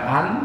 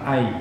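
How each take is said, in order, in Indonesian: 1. Suku kata ini berakhir dengan bunyi n yang jelas. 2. Bunyi n menyatu dengan bunyi y yang ditahan. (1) "bukan an" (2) "tapi ai"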